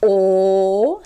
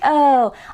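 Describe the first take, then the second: First: A darker, pure oh vowel held steady. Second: A bright, forward, surfer-style oh vowel. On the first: "but the Japanese O is O" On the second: "bright O is kind of like Keanu Reeves ... Like a very California surfer dude"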